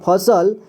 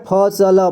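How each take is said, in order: No difference in how they are said.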